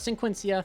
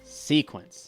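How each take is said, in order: First: The word ends with an added 'ia' syllable. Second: The word ends plainly, without an extra syllable. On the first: The speaker calls it wrong. "not Sequencia" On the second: The speaker calls it right. "It's the Fiendsmith or Fiendsmith Sequence"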